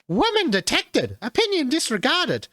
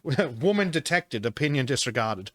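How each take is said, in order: First: It is said in a high-pitched put-on voice. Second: It is said in a normal speaking voice.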